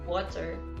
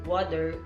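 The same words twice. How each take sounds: First: The middle consonant is a clear t. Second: The middle consonant sounds like a d. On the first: The speaker calls it right. "the correct water" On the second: The speaker calls it wrong. "D for T"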